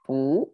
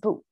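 First: The syllable is said with a rising tone. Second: The syllable is said without a rising tone. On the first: This is how the word is said in real life. "I put a second tone here" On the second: This is the dictionary form of the word. "Its original sound is a bu"

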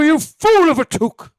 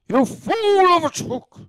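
First: The voice sounds younger and smoother, not gravelly. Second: The voice sounds older and more gravelly. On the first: "It's like too young of a Gandalf" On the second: "You have to, like, gravelly it. You have to age it up a little bit"

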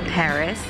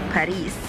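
First: Paris is pronounced the English way. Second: Paris is pronounced the German way. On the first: "speaking with you guys in English, so it should be Paris" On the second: "in Germany you're calling it Paris"

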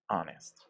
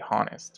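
First: The word begins with a vowel sound, no 'h'. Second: The word begins with an audible 'h' sound. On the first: The speaker calls it right. "we say honest" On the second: The speaker calls it wrong. "We don't say honest"

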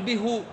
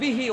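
First: The h is followed by a u vowel. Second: The h is followed by an i vowel. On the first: The speaker calls it wrong. "ولا تقول به" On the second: The speaker calls it right. "فتقول به"

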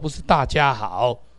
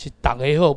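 First: The greeting is pronounced the Mandarin way. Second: The greeting is pronounced the Taiwanese way. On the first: The speaker calls it wrong. "这是北京话" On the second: The speaker calls it right.

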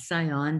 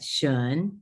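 First: The ending is said as two syllables. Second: The ending is said as one syllable. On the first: The speaker calls it wrong. "not scion" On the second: The speaker calls it right. "but shun"

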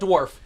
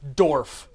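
First: The word starts with a dw sound. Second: The word starts with a plain d sound. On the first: The speaker calls it wrong. "not Dwarf" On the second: The speaker calls it right. "D-O-R-F, Dwarf"

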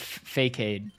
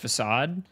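First: It uses a spelled-out mispronunciation of the word. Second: It uses the standard pronunciation of the word. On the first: The speaker calls it wrong. "I pronounced it Facade for a really long time" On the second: The speaker calls it right. "I did not know it was pronounced Facade"

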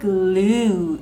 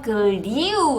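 First: The vowel is a plain 'oo' sound. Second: The vowel is a 'yoo' glide sound. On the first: The speaker calls it right. "글루 으우 소리라는 점" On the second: The speaker calls it wrong. "글리우 아니고"

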